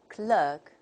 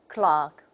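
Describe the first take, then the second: First: It is said with an American accent. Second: It is said with a British accent. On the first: "according to the American model" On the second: "if we take the British model, we say"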